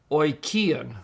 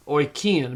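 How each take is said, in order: First: Oikion read once with a falling tune; model pronunciation. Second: Oikion stretched out slowly, each syllable clear; slow model word. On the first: Teacher reads out the found word oikion. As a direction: say oikion cleanly and let it fall. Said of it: "there you have it, the word". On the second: Teacher repeats Oikion slowly so students catch it. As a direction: sound out Oikion slowly for learners. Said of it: "Omicron iota is pronounced oi". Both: Shown as a demonstration.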